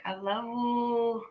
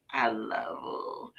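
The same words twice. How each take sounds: First: High, long drawn-out sweet voice; imitating how she says it to Lily; cutesy love you. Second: Put-on soft, slow, drawn-out little-kid love you; hushed, lingering imitation of a little boy; little boy Doobie. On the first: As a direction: stretch it out high and sugary. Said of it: "that's how she said it to me". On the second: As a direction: stretch it out quietly, like a small child. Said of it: "That's how Doobie used to say it".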